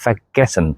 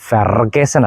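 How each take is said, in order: First: ഫെഗസൻ with the r dropped, soft fe; German vergessen without a hard r; correct prefix. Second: ഫെർഗസൻ with a hard r after fe; slow ഫെർഗസൻ, stressing the r; the mistaken hard r in ഫെർഗസൻ; wrong prefix. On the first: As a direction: say ഫെഗസൻ as fe-gessen. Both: Shown as a demonstration. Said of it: "അത് ഫെർഗസൻ അല്ല".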